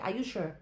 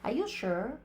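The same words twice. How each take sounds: First: It is said in an African accent. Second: It is said in a posh American accent.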